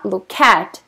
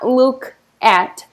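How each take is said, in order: First: The two words run together without a pause. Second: There is a pause between the two words. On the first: The speaker calls it right. "vou falar look at, ... o som aí emenda" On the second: The speaker calls it wrong. "Eu não vou falar look at"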